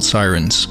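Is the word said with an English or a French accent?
English. It is said with an English pronunciation.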